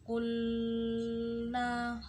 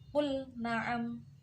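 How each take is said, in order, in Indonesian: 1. Bunyi L menyatu langsung ke N. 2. Bunyi L dibaca jelas sebelum N. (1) "nggak boleh baca" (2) "bacanya harus terang, idhar fi'li"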